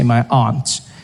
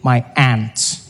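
First: Aunt is said in the speaker's own non-American accent. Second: Aunt is said like 'ant', in an American accent.

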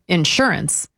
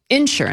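First: The stress is on the second syllable. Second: The stress is on the first syllable.

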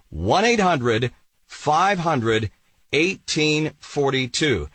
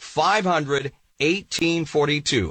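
First: The number is said at a slow pace. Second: The number is said at a quicker pace.

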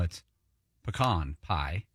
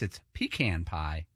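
First: It is said the Texas and Oklahoma way. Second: It is said the Northeastern way.

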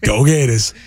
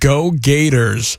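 First: It is said in a Boston accent. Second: It is said in a Florida accent.

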